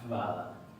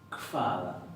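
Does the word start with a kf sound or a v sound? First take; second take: v sound; kf sound. First: The word begins with a plain v sound. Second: The word begins with a k then soft f. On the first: The speaker calls it wrong. "No se va a pronunciar vada ni vada" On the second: The speaker calls it right. "Como si le pusiéramos una K F adelante y la F suavecita"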